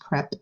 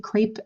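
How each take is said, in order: First: The vowel does not rhyme with grape. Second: The vowel rhymes with the word grape. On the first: The speaker calls it right. "It is pronounced crepe" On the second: The speaker calls it wrong. "Most people say crepe. It is not crepe. It does not rhyme with grape"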